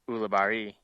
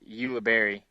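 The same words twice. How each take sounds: First: The name is said with Spanish pronunciation. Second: The name is said with English pronunciation. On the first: "it's actually a Spanish name which is pronounced" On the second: "in English it's"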